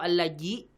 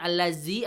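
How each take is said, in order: First: The middle consonant is a j sound. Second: The middle consonant is a z sound. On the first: "bukan pakai jim atau pakai zai" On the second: "bukan pakai jim atau pakai zai"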